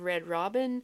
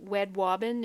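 First: The R sounds are said as clear R sounds. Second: The R sounds are replaced by W sounds. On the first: The speaker calls it right. "instead of red robin" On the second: The speaker calls it wrong. "you might say W for R"

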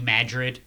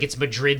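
First: The name is said the local Midwest way. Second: The name is said the standard Spanish way. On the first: It names the town in Missouri. "but it's New Madrid in Missouri" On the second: It names the city in Spain. "it's Madrid, Spain"

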